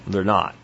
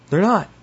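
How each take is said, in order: First: Said in the usual way. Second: "They're not" repeated high and punchy; high, insistent stress on "They're not"; emphatic denial. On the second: Real, not acted.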